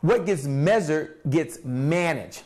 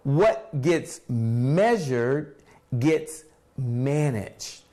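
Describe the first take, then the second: First: It is said at a normal pace. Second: It is said more slowly.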